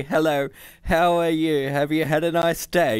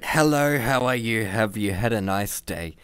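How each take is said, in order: First: High, put-upon computer; indignant computer. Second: Sarcastic. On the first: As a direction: recite the polite greeting indignantly. Computer's demanded greeting. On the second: Hans mocks the computer's line. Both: A narrator's reading.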